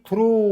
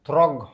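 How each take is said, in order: First: The word ends in a vowel sound. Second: The word ends with a hard G sound. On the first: The speaker calls it right. "जीटा silent रहउची" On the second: The speaker calls it wrong. "आमे जदि ठीक से पढ़िबा जी एच थ्रग थ्रग हबो"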